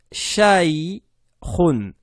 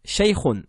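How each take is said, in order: First: Shaykhun stretched, falling, the kh rasped; drawn-out demo. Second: Shaykhun said short; quick repeat. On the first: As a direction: model "shaykhun" slowly. (démonstration allongée de shaykhun) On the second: (répétition brève de shaykhun) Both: Shown as a demonstration.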